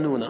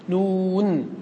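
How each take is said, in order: First: نون with a final a, nuna; fatha ending. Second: نون held long and higher, closing on a vowelless n; letter-name reading. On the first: Teacher explaining the poet's added vowel, fatha ending. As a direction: say نون as nuna, voicing the last n with a. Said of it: "فحركه بالفتحة لأنها أخف الحركات". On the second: Teacher answering how the letter is read, prolonged recitation. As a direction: stretch the oo of نون, stop on the final n. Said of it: "إذا قرأناها كيف نقرأ". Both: Shown as a demonstration.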